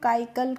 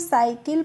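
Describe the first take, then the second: First: The word begins with a k sound. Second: The word begins with an s sound. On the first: The speaker calls it wrong. "यहाँ पे हम काइकल करके नहीं पढ़ रहे हैं" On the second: The speaker calls it right. "यहाँ पे हम साइकिल पढ़ रहे हैं"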